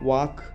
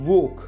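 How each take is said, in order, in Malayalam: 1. ഈ സ്വരം തുറന്ന 'ah' പോലെയാണ് ഉച്ചരിക്കുന്നത്. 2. ഈ സ്വരം വട്ടമടിച്ച 'aw' പോലെയാണ് ഉച്ചരിക്കുന്നത്. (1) "പലരും വാക്ക് അല്ലെങ്കിൽ വാട്ടർ എന്നൊക്കെയാണ് പറയുന്നത്. തെറ്റാണ്"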